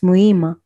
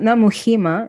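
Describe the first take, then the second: First: The H sound is silent in the name. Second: The H sound is pronounced in the name. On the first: The speaker calls it right. "you don't pronounce the H" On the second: The speaker calls it wrong. "Not Muhima"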